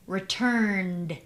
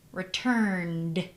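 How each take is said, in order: Both takes have the same delivery.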